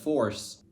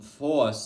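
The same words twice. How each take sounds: First: The r sound after the vowel is pronounced. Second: The r sound after the vowel is dropped. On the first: It is the usual way elsewhere. "instead of force" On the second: It is the old-fashioned southern accent's way. "you hear like, um, force"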